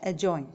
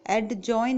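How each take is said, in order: First: "एडजॉइन" with a silent D; correct pronunciation. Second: "एडजॉइन" with a sounded D; wrong pronunciation. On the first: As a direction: say "एडजॉइन" as a-join. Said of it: "correct English है". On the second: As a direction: say "एडजॉइन" as ad-join. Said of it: "नहीं बोलेंगे". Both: Shown as a demonstration.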